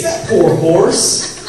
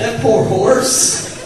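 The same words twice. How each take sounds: First: Drawn-out, loud, fake sorrowful; milk the pity, slow and loud; hammed-up sympathy dragged out; mock pity. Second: Even slower, higher and loud; mock pity. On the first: Mocking jockey's fake sympathy. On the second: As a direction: stretch every word of fake pity.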